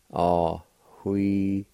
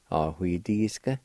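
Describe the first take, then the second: First: Ahuidisca drawn out slowly with a faint H before hui; slow careful teacher model of Ahuidisca; slow demonstration. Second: Said in the usual way. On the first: Shown as a demonstration. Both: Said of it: "the faint H sound between the A and W".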